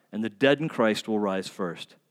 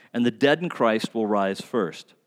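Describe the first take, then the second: Both takes have the same delivery.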